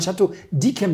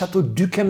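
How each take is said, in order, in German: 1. Das y wird als ee-Laut gesprochen. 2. Das y wird als gerundetes ü gesprochen. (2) "Man sagt ja auch nicht"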